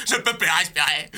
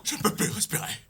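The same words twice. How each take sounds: First: Full voice, desperate; voiced panic. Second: Whispered, gasping for air; breathless whisper. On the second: Acted. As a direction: choke it out in a whisper. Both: Dubbing panicked lion.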